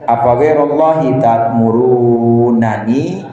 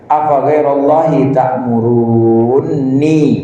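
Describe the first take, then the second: First: The two n sounds are kept apart. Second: The two n sounds merge into one.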